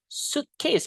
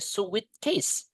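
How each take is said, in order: First: The first syllable has one vowel sound. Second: The first syllable has two vowel sounds. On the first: The speaker calls it right. "Jadi i-nya nggak dibaca" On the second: The speaker calls it wrong. "We cannot say suitcase"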